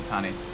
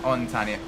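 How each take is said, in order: First: No n sound follows the first vowel. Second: An n sound follows the first vowel. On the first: The speaker calls it right. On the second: The speaker calls it wrong.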